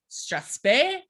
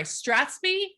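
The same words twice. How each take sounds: First: Strathspey said STRATH-spay, rising; strathspey with the ending as spay; another way to say it. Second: Strathspey said as STRATH-spee, rising; strathspey with the ending as spee; corrected strathspey. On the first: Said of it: "or strathspey". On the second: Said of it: "sorry, strathspey". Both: Shown as a demonstration.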